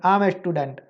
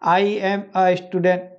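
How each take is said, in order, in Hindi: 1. 'I' और 'am' जल्दी से एक साथ जुड़कर बोले जाते हैं। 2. हर शब्द पूरा और अलग-अलग बोला जाता है। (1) "ये जो आई है, एम है, इसको हम ऐसे बोलने लग जाएंगे" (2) "तो अभी आप पू- पूरा बोलोगे"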